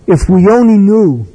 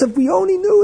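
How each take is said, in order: First: Louder, a wailing regret over the news; wistful lament. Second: Much higher, innocently repeating his words; hammed-up what-did-I-say; defensive repeat. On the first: Retold or imitated. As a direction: mourn it, loud and grieving.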